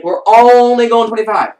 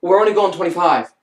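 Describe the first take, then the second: First: "only" stretched long, high and loud; stress on ONLY. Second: Said in the usual way. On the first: Real, not acted. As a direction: draw out and hammer the word "only". Repeats line with exaggerated emphasis.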